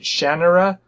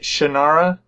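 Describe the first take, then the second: First: The name is said with an 'e'-like vowel. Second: The name is said without an 'e'-like vowel. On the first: The speaker calls it wrong. "makes it sound like there's an e in it" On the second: The speaker calls it right. "I always pronounced it Shannara"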